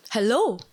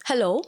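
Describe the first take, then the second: First: Louder hello with a falling tune; calling out again. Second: Rising, louder call hello into the chute. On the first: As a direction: call it firmer, a bit louder. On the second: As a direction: call out searching, questioning. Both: Retold or imitated. Calling into the trash chute.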